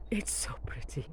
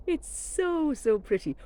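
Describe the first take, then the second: First: Hushed whisper of delight; a whispered aside. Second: Said in the usual way. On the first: Real, not acted. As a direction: breathe it out softly to yourself. Admiring clematis, hushed aside.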